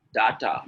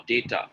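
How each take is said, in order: First: DATA with two "ah" vowels; wrong pronunciation. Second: DATA with "day" in the first syllable; correct pronunciation. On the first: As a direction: say DATA as "DAH-tah". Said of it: "a lot of people saying". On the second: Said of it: "The correct pronunciation is". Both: Shown as a demonstration.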